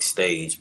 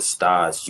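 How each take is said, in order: First: It is said as the English word stage. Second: It is said with a French pronunciation. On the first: "It's spelled like stage" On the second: "French pronunciation is they call it stage"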